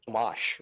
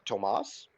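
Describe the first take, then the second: First: The name ends with an sh sound. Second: The name ends with a plain s sound.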